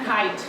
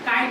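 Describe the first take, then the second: First: The k is said with a puff of air. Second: The k is said without a puff of air. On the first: The speaker calls it right. "কয়টা কি হবে খ" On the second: The speaker calls it wrong. "there is no ক in English"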